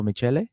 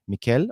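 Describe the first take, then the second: First: "Michele" said as mee-CHEH-leh; alternative pronunciation. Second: "Michele" said as mee-KELL; pronunciation check. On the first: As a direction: say "Michele" with a ch and a sounded final e. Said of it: "I don't know what the". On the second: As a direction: say "Michele" with a hard k and no final vowel. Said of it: "Michele or Michele?". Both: Shown as a demonstration.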